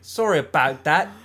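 It is said in an Australian accent.

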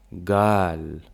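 It begins with a hard g sound.

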